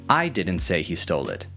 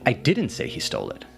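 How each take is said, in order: First: The word 'I' carries the main stress. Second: The word 'didn't' carries the main stress. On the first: Someone else said it. "emphasizing that it wasn't me who said it" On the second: The speaker denies saying it at all. "clarifying that you did not say that"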